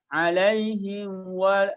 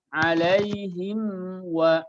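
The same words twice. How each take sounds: First: The lips rush to w, blurring the m. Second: The m is fully pronounced before the w. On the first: The speaker calls it wrong. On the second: The speaker calls it right.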